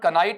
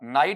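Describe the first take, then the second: First: A k sound starts it, with an eye vowel. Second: It starts with n, with an eye vowel. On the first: The speaker calls it wrong. "इसका उच्चारण कनाइट नहीं होगा" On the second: The speaker calls it right. "बल्कि क्या बनेगा, नाइट बनेगा"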